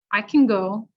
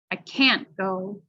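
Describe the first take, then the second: First: "can" reduced to kin, stress falls on "go"; unstressed can. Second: CAN'T drawn out slowly with a very clear "a" vowel; stress on CAN'T. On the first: Teacher contrasting for listening students, can unstressed as kin. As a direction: say can quickly with a relaxed vowel, kin. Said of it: "we'll actually pronounce it like kin". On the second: Teacher contrasting for listening students, long stressed CAN'T. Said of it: "So can't is gonna be emphasized". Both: Shown as a demonstration.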